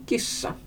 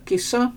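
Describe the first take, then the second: First: Kissa with a held double s; long consonant. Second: Kissa with one brief s; short consonant. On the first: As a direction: linger on the ss in kissa. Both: Shown as a demonstration. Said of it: "uttalas långa bara om de dubbeltecknas".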